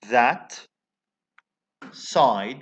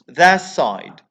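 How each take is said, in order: First: The t of that is a plosive stop. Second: The t of that becomes a fricative.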